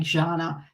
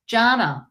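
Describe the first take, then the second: First: "Jana" opened on a soft French-style zh; soft zh pronunciation. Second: "Jana" opened on a hard English J; hard J pronunciation. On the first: Reader mocking her own mistake with a name, soft zh in Jana. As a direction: say the J of "Jana" as zh, lower. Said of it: "I don't know what I was being". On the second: Reader correcting a viewer's name, hard J in Jana. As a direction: say the J of "Jana" as in jam. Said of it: "Jana with a J". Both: Shown as a demonstration.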